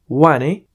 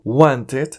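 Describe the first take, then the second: First: The T sound is left out. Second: The T sound is fully pronounced. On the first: "podemos cancelar la letra T" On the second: "diremos la palabra completa"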